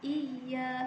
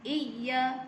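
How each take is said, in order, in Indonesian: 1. Bunyi y yang digandakan ditekan dengan lembut dan halus. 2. Bunyi y yang digandakan ditekan terlalu keras, jadi hamzah. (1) "secara lembut sahaja" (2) "Jangan jadi iya. Kalau jadi iya, dia jadi huruf hamzah"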